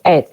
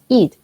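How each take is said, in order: First: The vowel is an open e sound. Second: The vowel is a short i sound. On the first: The speaker calls it wrong. "No decimos" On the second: The speaker calls it right. "decimos it"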